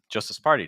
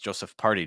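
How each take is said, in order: First: Joseph ends with an audible s sound. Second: Joseph ends without any s sound. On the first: The speaker calls it right. "make sure that Joseph ends with something that resembles a s sound" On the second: The speaker calls it wrong. "that's just not correct"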